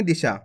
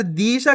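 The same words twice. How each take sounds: First: दिशा with the first syllable clipped short; quick short इ. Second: दिशा said with a drawn-out "dee"; wrong-way दिशा, its short इ pulled into a long ई; stretched long ई. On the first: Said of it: "जल्दी से उच्चारण कर देंगे". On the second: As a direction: hold the first vowel of दिशा too long. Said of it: "खींच के पढ़ोगे तो बड़ी ई की मात्रा". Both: Shown as a demonstration.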